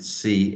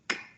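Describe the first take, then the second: First: It is said as the letter's name. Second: It is said as a short k sound. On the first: The speaker calls it wrong. "C is not sounded C" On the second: The speaker calls it right. "it's sounded K"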